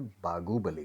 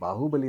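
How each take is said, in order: First: The middle consonant is a G sound. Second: The middle consonant is an H sound. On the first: "बागुबली कहते हैं। क्योंकि उनके script में ह sound है ही नहीं।" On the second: "वो बाहुबली नहीं कहते"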